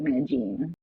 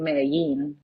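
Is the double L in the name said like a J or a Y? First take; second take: J; Y. First: The double L sounds like an English J. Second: The double L sounds like an English Y. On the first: This is how Colombians say it. "we'll be like" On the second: This is how other Spanish-speaking countries say it. "other countries will say like"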